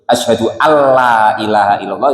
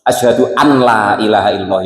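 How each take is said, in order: First: The n sound merges into the l. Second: The n sound is kept before la. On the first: "nonnya maksudnya ditajwidkan, dihukumi idgham" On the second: "ya boleh"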